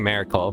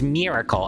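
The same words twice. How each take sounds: First: The first vowel sounds like 'eh'. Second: The first vowel sounds like 'ih'. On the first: The speaker calls it wrong. "I got made fun of a lot in college for saying miracle" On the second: The speaker calls it right. "but I know it's miracle"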